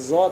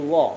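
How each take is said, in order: First: The first consonant is a light, plain z sound. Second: The first consonant is a heavy, thick th sound. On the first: The speaker calls it wrong. "bukan zo" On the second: The speaker calls it right. "seperti huruf zal tapi tebal"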